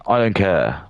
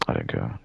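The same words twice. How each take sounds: First: Full-voiced, open declaration; firm dismissal. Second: Low, soft, almost under the breath; quiet dismissal. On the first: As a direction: say it out clearly and firmly. Repeats it up at full voice. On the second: Same words, first low, then firm. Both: Real, not acted.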